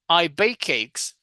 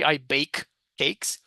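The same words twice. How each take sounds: First: The two k sounds are linked together. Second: The two k sounds are said separately. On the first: "we're going to link the sounds" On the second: "You don't you don't have to say"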